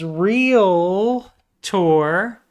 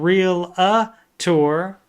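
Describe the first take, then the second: First: The word is said with two syllables. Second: The word is said with three syllables. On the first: The speaker calls it right. "There's no A after the T or after the L" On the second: The speaker calls it wrong. "It's not real a tour, but so many people say that"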